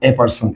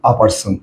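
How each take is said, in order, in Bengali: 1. আর্টিকেলটি বর্ণের নাম 'ay' এর মতো শোনায়। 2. আর্টিকেলটি একটি ছোট, দ্রুত 'uh' ধ্বনি। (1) "তখন দেখো এ পার্সন" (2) "এটা করবা কি আ পার্সন"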